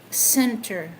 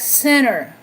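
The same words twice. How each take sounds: First: The T sound in the middle is clear. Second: The T sound in the middle is dropped. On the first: "we pronounce that center" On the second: "Like center"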